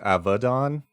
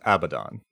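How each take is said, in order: First: It is said with Hebrew pronunciation. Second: It is said with English pronunciation. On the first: "in Hebrew, it's Avadon" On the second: "but it's Abaddon"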